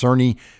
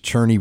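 First: The name begins with an s sound. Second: The name begins with a ch sound. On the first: It is said the way the spelling suggests. The speaker calls it wrong. "it looks like it's pronounced Cerny" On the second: It is said the way the name is properly pronounced. The speaker calls it right. "The proper pronunciation is Cherney"

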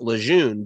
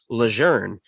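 First: The last syllable has no R sound. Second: The last syllable has an R-like sound. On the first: This is how outsiders say the name. The speaker calls it wrong. "It's not Lejeune" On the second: This is how the family says its own name. The speaker calls it right. "The family also still pronounces their last name Lejeune"

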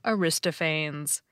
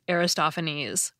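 First: The main stress falls near the start of the name. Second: The main stress falls on the third syllable. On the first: The speaker calls it wrong. "I called him Aristophanes" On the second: The speaker calls it right. "it's actually pronounced Aristophanes, which I recognize immediately now that I hear it said the right way"

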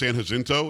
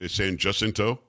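First: The J is said like an H sound. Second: The J is said like an English J. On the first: The speaker calls it wrong. "I thought it was" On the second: The speaker calls it right. "Why would you pronounce the J there"

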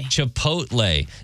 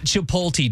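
First: The t sound comes before the l sound. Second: The l sound comes before the t sound. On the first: The speaker calls it right. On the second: The speaker calls it wrong.

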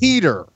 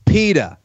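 First: The name is said in a standard accent. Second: The name is said in a Boston accent. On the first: "his name isn't PETA, it's Peter" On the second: "But the Boston accent, changed it"

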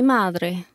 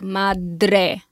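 First: The D is soft, almost like a th. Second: The D is pronounced hard and clearly. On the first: This is the Spanish pronunciation. "in Spanish you're like a little looser, almost like a th sound" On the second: This is the Italian pronunciation. "in Italian you really like have to pronounce the D"

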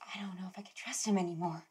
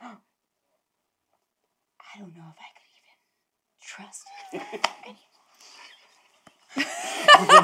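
First: It is said in a plain, quiet voice. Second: It is said with a gasp and heavy breath.

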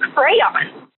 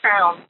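First: The word is said with two syllables. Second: The word is said as one syllable. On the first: The speaker calls it right. "because that's what it is" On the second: The speaker calls it wrong. "But now it's crown"

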